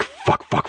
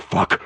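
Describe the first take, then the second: First: "fuck, fuck" breathed out as a shocked whisper; whispered cursing. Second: Said in the usual way. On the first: A narrator's reading. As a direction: hiss the words "fuck, fuck" under your breath. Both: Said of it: "spew a series of curse words".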